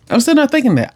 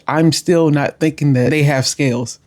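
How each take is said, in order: First: "still" pitched high and leaned on hard; stress on still. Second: Said in the usual way. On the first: Real, not acted. Telling viewers she still had no clue, stressing "still". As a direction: punch the word "still" up high in disbelief.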